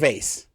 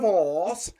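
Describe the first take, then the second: First: The word is said in a plain American way. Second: The word is said in a put-on posh way. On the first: The speaker calls it right. "we're in America. It's a vase" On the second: The speaker calls it wrong. "You cannot be like, uh, hello"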